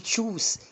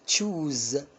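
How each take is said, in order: First: The final consonant is a hissing s sound. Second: The final consonant is a buzzing z sound. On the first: The speaker calls it wrong. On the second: The speaker calls it right.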